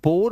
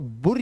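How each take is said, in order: First: The vowel is a plain o sound. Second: The vowel is a short plain u. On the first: "इसे बुर या बोर मत पढ़ लेना" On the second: "इसे बुर या बोर मत पढ़ लेना"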